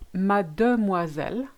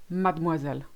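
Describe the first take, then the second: First: Mademoiselle with all syllables, made-moiselle; full form. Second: Mademoiselle as mad'moiselle, middle E dropped; elided. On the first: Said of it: "you've got that silent E". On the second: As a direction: squeeze mademoiselle to mad-moiselle. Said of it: "You actually skip it". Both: Shown as a demonstration.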